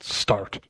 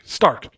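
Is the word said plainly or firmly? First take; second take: plainly; firmly. First: The word is said plainly, without force. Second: The word is said firmly, with force.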